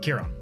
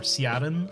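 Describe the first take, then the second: First: The name begins with a K sound. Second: The name begins with an S sound. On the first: The speaker calls it right. "the phonetic correct pronunciation" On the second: The speaker calls it wrong. "I get Siren or Siaran a lot"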